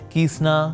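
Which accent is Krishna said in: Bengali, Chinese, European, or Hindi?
European. It is said in a European accent. "somebody is European so कीसना"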